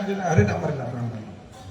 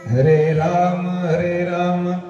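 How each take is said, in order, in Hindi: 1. शब्द नींद में अस्पष्ट और बुदबुदाते हुए बोले गए हैं। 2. शब्द साफ़ और स्पष्ट उच्चारण के साथ बोले गए हैं। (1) "कई बार ऐसा नींद में आता है तो अच्छी तरह से उच्चारण नहीं होता है" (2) "ऐसा शुद्ध और स्पष्ट शब्द बोलना चाहिए"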